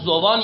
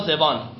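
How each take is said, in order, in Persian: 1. مصوت اول صدای 'u' است. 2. مصوت اول صدای 'i' است. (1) "به ضم زا" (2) "و کسرها"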